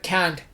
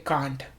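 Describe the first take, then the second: First: It has a North American flat vowel. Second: It has a British-style broad vowel. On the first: "a word can't" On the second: "we would say can't"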